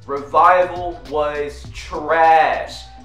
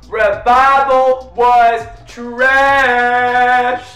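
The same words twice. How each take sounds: First: It is said at normal volume. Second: It is said much louder.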